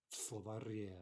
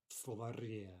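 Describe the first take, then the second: No difference in how they are said.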